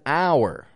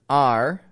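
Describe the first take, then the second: First: It is said with two vowels, like "hour". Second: It is said with one vowel, like "are". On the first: The speaker calls it wrong. "people will pronounce the word R, O-U-R, as our" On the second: The speaker calls it right. "have the same pronunciation"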